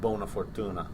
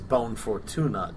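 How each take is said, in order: First: The first word ends with a final 'a' vowel. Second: The first word ends without its final vowel. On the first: The speaker calls it right. "instead of" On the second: The speaker calls it wrong. "pronounces it incorrectly"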